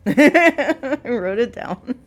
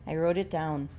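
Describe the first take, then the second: First: Loud, slow, laughing through it. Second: Said in the usual way. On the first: Real, not acted. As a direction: crack up while repeating. Laughing loud drawn-out repeat.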